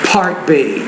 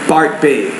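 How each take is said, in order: First: The P is released with a strong puff of air. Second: The P is released with little or no air. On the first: The speaker calls it right. "If you say the P consonant sound, if I put a piece of paper in front of my mouth, it might look like this" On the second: The speaker calls it wrong. "You're saying"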